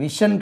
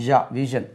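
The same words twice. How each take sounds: First: "விஷன்" with a hissed sh, as vishan; wrong pronunciation. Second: "ஷா, விஷன்" with a voiced zh, as ja, vijan; correct pronunciation. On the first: Teacher telling learners what it is not, "விஷன்" with a plain sh. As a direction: say "விஷன்" with sh, the mistake. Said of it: "விஷன் கிடையாது". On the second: Teacher modelling the right sound, "ஷா, விஷன்" with voiced zh. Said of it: "ஷா என்று உச்சரிக்கக்கூடாது". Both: Shown as a demonstration.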